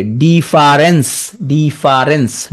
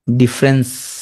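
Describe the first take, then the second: First: ডিফারেন্স drawn out slowly as di-fa-rens; careful pronunciation. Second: Said in the usual way. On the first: Shown as a demonstration. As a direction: spell out ডিফারেন্স syllable by syllable, very slow. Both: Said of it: "ডিফারেন্স তুমি উচ্চারণ করবে কি?".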